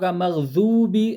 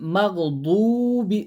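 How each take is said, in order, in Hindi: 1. बीच का व्यंजन z की आवाज़ है। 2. बीच का व्यंजन सादा d की आवाज़ है। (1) "बाज लोग मगजूबी जाल के वैसा पढ़ते" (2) "बाज लोग मगदूबी दाल के वैसा पढ़ते"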